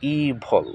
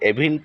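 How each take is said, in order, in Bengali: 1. এটি 'ee' দিয়ে শুরু এবং 'vul' দিয়ে শেষ হয়। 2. এটি 'eh' দিয়ে শুরু এবং 'vil' দিয়ে শেষ হয়। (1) "শুদ্ধ উচ্চারণ হবে ইভল" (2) "এটাকে এভিল পড়ে থাকে অনেকে"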